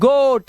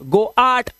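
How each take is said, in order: First: The vowel is a single long o sound. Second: The vowel is split into o then a. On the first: The speaker calls it right. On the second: The speaker calls it wrong.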